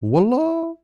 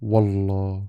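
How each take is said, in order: First: It is said high and rising, surprised. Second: It is said calmly in a natural tone. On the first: The speaker is reacting with surprise. "you are surprised. The word becomes a reaction in tone high rising" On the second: The speaker is being honest and sincere. "The word softens the truth in tone, natural"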